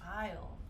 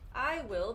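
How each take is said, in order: First: The words merge into one short syllable. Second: Two full words are said separately. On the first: "sometimes they will shorten this" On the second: "if we put these together"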